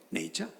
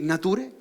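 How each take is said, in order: First: "nature" said the English way, like nay-cha; English pronunciation. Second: "nature" read out letter by letter in Spanish, na-tu-re; spelling pronunciation. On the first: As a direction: give "nature" its real English sound. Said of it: "tú vas a poner nature". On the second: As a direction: pronounce "nature" as if it were a Spanish word. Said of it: "No, tú vas a poner". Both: Shown as a demonstration.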